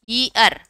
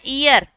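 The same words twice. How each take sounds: First: The word starts with a y sound. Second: The word starts with a bare vowel sound. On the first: The speaker calls it right. "ये होता है यी" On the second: The speaker calls it wrong. "इसको अपन बोलते हैं ईयर, but ये ईयर नहीं होता"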